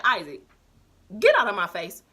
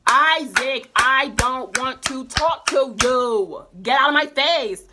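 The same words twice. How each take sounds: First: Said in the usual way. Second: Louder, fed-up shout at him; loud telling off. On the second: Retold or imitated. Narrator yelling at classmate Isaac to leave, fed-up shout. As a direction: lose patience and yell it.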